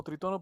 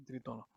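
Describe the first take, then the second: First: "tritono" with the stress on TO, tri-TO-no. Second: "trítono" with the stress on TRÍ, as the dictionary has it; trítono, stressed on the first i. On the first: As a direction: say "tritono" the everyday Latin American way, leaning on the second syllable. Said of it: "Lo conocemos como tritono". ("tritono" con acento en la segunda sílaba) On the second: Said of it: "con tilde en la i". ("trítono" con acento en la primera í) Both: Shown as a demonstration.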